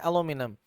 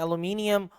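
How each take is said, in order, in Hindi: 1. यह अमेरिकन लहजे में कहा गया है। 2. यह ब्रिटिश लहजे में कहा गया है। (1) "अमेरिकन कहते हैं" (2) "ब्रिटिश कहते हैं"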